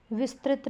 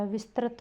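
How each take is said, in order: First: विस्तृत said as "vistrit"; wrong vowel. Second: Said in the usual way. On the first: Shown as a demonstration. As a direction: put a clear "ri" in विस्तृत. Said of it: "विस्तृत नहीं होता". (विस्तृत को "विस्त्रित" बोलते हुए) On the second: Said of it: "विस्तृत होता है".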